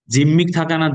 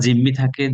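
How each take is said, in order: First: জিম্মি থাকা না said louder and higher, stress on জিম্মি; corrected phrase. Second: Said in the usual way. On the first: Shown as a demonstration. Teacher marking the wrong form for students, loud and high. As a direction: punch জিম্মি hard before the correction.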